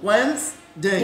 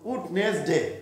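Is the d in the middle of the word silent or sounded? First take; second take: silent; sounded. First: The d is silent and the s sounds like z. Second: Every letter is sounded, including the d. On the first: The speaker calls it right. "ডি silent" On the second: The speaker calls it wrong. "কিন্তু এখন কি এরকম বলা যাবে?"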